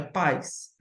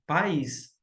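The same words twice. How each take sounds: First: "pais" as one syllable, stressed on the a; wrong pronunciation. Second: "país" in two syllables, stressed on the í; correct pronunciation. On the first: Teacher saying what it is not, "pais" in one syllable. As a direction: say "pais" as a gliding diphthong, PAIS. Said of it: "não é pais". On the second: Teacher giving the right word, "país" as two syllables, pa-ÍS. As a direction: say "país" as pa-ÍS, keeping the vowels apart. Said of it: "é país". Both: Shown as a demonstration.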